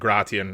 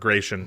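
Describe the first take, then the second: First: The name is said in a non-anglicized way. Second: The name is said in an anglicized way.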